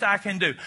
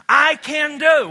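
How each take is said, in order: First: Said in the usual way. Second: "I can do" shouted high and slow; loud slow declaration. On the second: Shown as a demonstration. Preacher leading the congregation, loud and slow. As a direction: hammer each word out louder. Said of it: "One more time".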